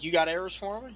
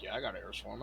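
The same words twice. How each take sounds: First: "You got arrows for him?" pitched high and louder; retold question. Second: "Yeah, I got arrows for him" low and softer; retold answer. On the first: Retold question, contrasts with answer.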